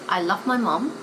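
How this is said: It is said in a southern British accent. "that's the southern, southern British accent"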